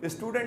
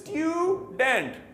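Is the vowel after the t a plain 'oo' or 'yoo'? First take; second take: oo; yoo. First: The vowel after t is a plain oo. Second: The vowel after t is a yoo sound. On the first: The speaker calls it wrong. "नहीं" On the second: The speaker calls it right. "यू को जरा सही तरह बोलें"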